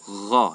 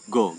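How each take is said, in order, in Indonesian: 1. Konsonan itu adalah bunyi tenggorokan bagian atas yang serak. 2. Konsonan itu adalah hambat g keras. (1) "Kha, tapi larinya ke gha" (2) "seperti huruf G ... ini keliru"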